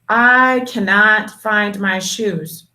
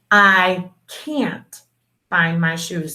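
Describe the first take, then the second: First: The negative is said in full as cannot. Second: The negative is said contracted as can't. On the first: The speaker calls it wrong. "they'll read it this way" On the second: The speaker calls it right. "you have to read it the way that it's written"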